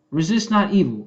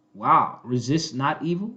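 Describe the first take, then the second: First: "Resist not evil." said flatly as a firm statement, falling on "evil". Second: Lower, "resist not evil?" asked in disbelief, rising at the end; incredulous question. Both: Shown as a demonstration.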